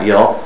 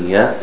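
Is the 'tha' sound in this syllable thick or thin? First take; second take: thick; thin. First: The tha sound is heavy and thick. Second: The tha sound is light and thin. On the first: The speaker calls it wrong. "Not يَثْ" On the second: The speaker calls it right. "The tha is thin"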